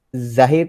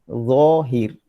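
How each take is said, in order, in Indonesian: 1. Konsonan pertama bunyi z biasa. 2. Konsonan pertama bunyi emfatik yang tebal. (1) "Zahir tu disebut dengan huruf zai. Salah lah tu" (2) "Sepatutnya zohir"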